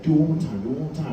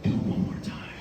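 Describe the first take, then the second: First: Said in the usual way. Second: Whispered temptation, right by the ear; little devil whisper. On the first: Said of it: "And then Barry's, like, right next to me". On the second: Retold or imitated. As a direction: tempt them like a devil on the shoulder. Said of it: "it was a little devil on my shoulder".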